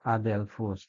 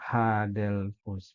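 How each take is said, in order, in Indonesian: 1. Kata ini langsung dimulai dengan vokal. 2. Kata ini dimulai dengan bunyi h. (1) "ini lagi adelphus" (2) "bukan hadelphus"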